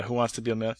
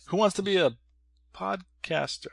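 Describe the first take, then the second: First: Said in the usual way. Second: High, announcer-style host voice; game show host. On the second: Pretend. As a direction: boom it like a quiz host. Game show host parody, retake.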